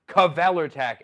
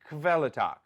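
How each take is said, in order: First: The K is said fully with a vowel after it. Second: The K is said softly, straight into the V. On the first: The speaker calls it wrong. "You don't pronounce it like Kavelertak" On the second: The speaker calls it right. "It is a soft K"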